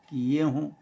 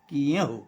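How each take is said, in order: First: The final vowel is nasalized. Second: The final vowel is plain, not nasalized. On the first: "ऊपर चंद्र बिंदु है" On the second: "इसकी जगह अगर चंद्रबिंदु हटा दें"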